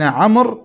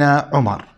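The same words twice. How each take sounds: First: First "عمر" said as one syllable, 'amr; "عمر" as 'AMR, no vowel after the m; amr, not Umar. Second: Second "عمر" said as two syllables, 'u-mar; "عمر" as 'U-MAR, vowel after the m; Umar, not amr. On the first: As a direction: open "عمر" with an a and close on the m-r cluster. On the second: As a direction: open "عمر" with u, then a clear -mar. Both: Shown as a demonstration. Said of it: "والفرق بين عمر وعمر".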